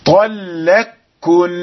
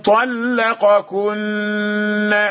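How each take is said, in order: First: The two k sounds merge into one doubled k. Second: The two k sounds are pronounced separately. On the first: "طلقكن بالإدغام" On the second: "هذا بالإظهار"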